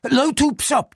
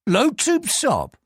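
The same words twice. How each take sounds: First: High, hurried nervous voice; nervous name. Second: Slow, deliberate repetition; slow checking. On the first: Frightened clerk gives his name to the police, high and nervous. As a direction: blurt out your own name. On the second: Police superintendent repeats the clerk's name, slow and doubting. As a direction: weigh each syllable of the name. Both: Acted.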